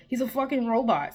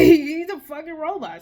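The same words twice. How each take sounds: First: Said in the usual way. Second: Higher, louder, slower, laughing; bursting out with a disbelieving laugh; louder laughing repeat. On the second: Real, not acted.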